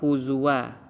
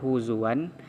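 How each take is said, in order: First: The word ends on a long vowel, no n. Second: The word ends with an n sound. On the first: The reader stops at this word. The speaker calls it right. "cara bacanya adalah huzwa disebabkan jatuh dia kepada hukum uh, mad iwad" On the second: The reading continues without stopping. The speaker calls it wrong. "Kenapa tidak huzuan?"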